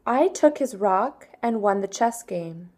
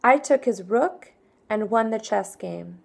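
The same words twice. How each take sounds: First: "rock" said in place of rook; slip of the tongue. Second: "rook" said with a short oo vowel; corrected reading. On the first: Teacher misreads the sentence, then corrects it. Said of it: "Excuse me, that was wrong". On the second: Teacher rereads the corrected practice sentence. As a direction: fixes the word "rook". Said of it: "that was wrong". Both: Shown as a demonstration.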